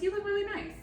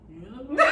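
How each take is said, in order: First: It is said in a high voice. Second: It is said in a deep voice.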